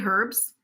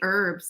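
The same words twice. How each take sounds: First: The word begins with an audible h sound. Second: The word begins without any h sound. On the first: "I say herbs like the British" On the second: "like the the H is silent"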